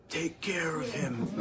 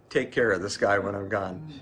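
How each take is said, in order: First: A hint of a mob boss giving orders; mafia voice. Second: Said in the usual way. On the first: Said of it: "if we go with the, uh, mafia voice". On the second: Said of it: "Or, or".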